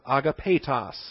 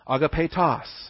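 First: The stress is not on the final syllable. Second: The stress is on the final syllable. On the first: The speaker calls it wrong. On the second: The speaker calls it right.

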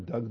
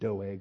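First: The name is said like the word 'Doug'. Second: The name is said as 'Doeg', not 'Doug'. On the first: The speaker calls it wrong. "I just like saying Doug" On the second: The speaker calls it right. "I probably should pronounce it Doeg"

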